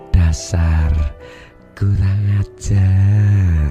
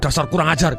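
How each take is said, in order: First: It is said in a tender, affectionate tone. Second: It is said in an angry, harsh tone. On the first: The scolding now feels loving and harmless. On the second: The speaker is scolding the listener.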